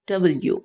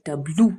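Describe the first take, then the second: First: The letter is said as 'double-you'. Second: The letter is said as 'dublu'. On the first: The speaker calls it right. "Actually এটা ডাবল ও" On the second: The speaker calls it wrong. "অনেক সময় আমরা এটাকে বলি ডাব্লু"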